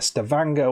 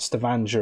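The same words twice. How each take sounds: First: The ending rhymes with the word hanger. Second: The ending does not rhyme with hanger. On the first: The speaker calls it right. "which rhymes with hanger" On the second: The speaker calls it wrong. "not Stavanger, as I've been saying"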